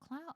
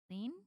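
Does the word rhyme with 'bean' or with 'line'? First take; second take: line; bean. First: The vowel is an 'eye' sound. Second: The vowel is a long 'ee' sound. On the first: "like Calvin Klein" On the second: "Like Mister Clean?"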